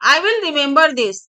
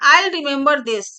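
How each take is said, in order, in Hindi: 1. I will को दो पूरे शब्दों की तरह बोला जाता है। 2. I will को एक अक्षर में छोटा किया जाता है, I'll।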